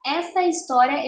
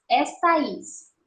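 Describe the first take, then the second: First: Said in the usual way. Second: "Esta is" slowly, A and I run into one syllable; junção de vogais. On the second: Shown as a demonstration. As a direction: show "Esta is" with the vowels joined. ("Esta is" devagar, juntando A e I numa sílaba) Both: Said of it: "a gente junta numa sílaba só".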